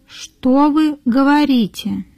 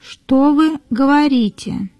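No difference in how they are said.

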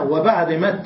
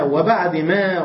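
First: مت said with a final t sound instead of ما; pausal ta. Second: Said in the usual way. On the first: Shown as a demonstration. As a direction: stop on مت with a clear t. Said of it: "بدلت الألف هاء للوقف". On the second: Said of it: "والما الأخيرة هي ما أصلًا".

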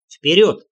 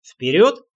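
First: Loud one-word order, firm ending; commanding call. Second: Вперёд with pitch rising at the end; questioning rise. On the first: Leader ordering his party onward, commanding call. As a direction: give Вперёд as a loud command. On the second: Rider looks back at the leader for confirmation, questioning. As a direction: ask Вперёд as a question, voice lifting. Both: A narrator's reading.

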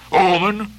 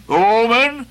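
First: A questioning Omen? with a rising lift; scornful echo. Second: A higher, louder, contemptuous Omen?; mocking outburst. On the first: Acted. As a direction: pick up the word Omen? in disbelief. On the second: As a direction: throw Omen? back with scorn. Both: Ahab scorns the word.

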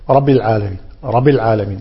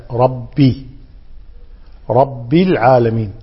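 First: رب run quickly into العالمين, vowel swallowed; unclear kasra. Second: رب drawn out as slow "rab-bii"; clear kasra. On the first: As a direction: show the slurred kasra in رب. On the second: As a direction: stretch the final i of رب. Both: Shown as a demonstration. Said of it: "ربي ما يوضح الكسر".

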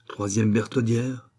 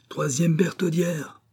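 First: Said in the usual way. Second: High, drawn-out call; slow, raised-pitch cry. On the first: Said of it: "dit Bio". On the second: A narrator's reading. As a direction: call it out like a demand across a courtyard. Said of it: "s'élança vers une tour en criant".

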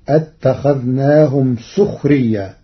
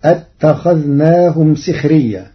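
First: سخريا with damma on sīn, sukhriyyā; Warsh reading. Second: سخريا with kasra on sīn, sikhriyyā; Hafs reading. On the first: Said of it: "بضم السين". (سخريا بضم السين) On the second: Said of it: "قرأ ورش كلمة سخريا". (سخريا بكسر السين) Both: Shown as a demonstration.

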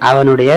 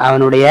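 The two takes are said the same way.

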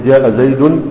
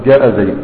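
First: "زيد" said in full as "زيدٌ" with the nun; with nunation. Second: "زيد" ending on a still dal, no tanween; pausal stop. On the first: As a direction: keep the tanween on "زيد". ("زيد" بتنوين الضم) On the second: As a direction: cut "زيد" dead at the dal. (وقف على "زيد" بالسكون) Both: Shown as a demonstration. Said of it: "تقول جاء زيد".

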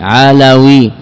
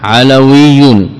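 First: Said in the usual way. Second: علوي stretched out slowly, the doubled ي held; drawn-out علوي for students; slow teaching demo. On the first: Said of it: "إذن واو مكسورة". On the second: Shown as a demonstration. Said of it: "هنا ياء مشددة".

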